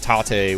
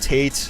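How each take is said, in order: First: It is said with a Japanese pronunciation. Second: It is said with an American pronunciation. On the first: "the Japanese way of saying it" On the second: "the Americanized way of saying it"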